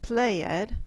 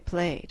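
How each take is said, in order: First: The ending is said as an extra syllable. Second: The ending is a plain d sound, one syllable. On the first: The speaker calls it wrong. "we do not say played" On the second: The speaker calls it right. "we say played"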